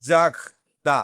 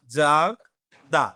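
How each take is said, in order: First: জাগদা said with a throaty French R; teacher's model word. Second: জাগদা drawn out very slowly, syllable by syllable; slowed demo. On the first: Teacher modelling জাগদা for students, French R. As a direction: model জাগদা for the class at normal speed. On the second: Teacher repeating জাগদা slowly for students, drawn out. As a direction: stretch জাগদা out so the class hears each sound. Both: Shown as a demonstration. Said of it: "Then আসতেছে কি?".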